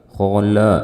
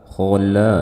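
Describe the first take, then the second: Both takes have the same delivery.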